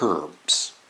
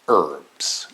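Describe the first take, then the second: First: The word begins with an audible h sound. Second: The word begins with no h sound. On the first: The speaker calls it wrong. "not herbs" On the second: The speaker calls it right. "even though it has an H"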